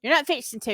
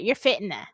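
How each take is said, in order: First: "fixing" said fully with the x, proper Southern. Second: "fitting" said with a t, casual Southern "fitting to". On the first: Contrasting proper Southern with everyday speech, full "fixing to". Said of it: "speaking proper Southern". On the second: Explaining everyday Southern talk to viewers, casual "fitting to". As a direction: clip "fixing" down to "fitting to", quick and everyday. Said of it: "you ain't even getting that out". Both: Shown as a demonstration.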